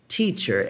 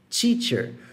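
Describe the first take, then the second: First: The first sound is a plain T. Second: The first sound is not a plain T. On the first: The speaker calls it right. "É um T aqui" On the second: The speaker calls it wrong. "Se fosse teacher, significa que ela ia ser pronunciada assim"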